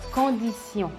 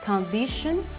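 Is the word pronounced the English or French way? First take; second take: French; English. First: It is pronounced the French way. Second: It is pronounced the English way. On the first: "en français" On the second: "en anglais"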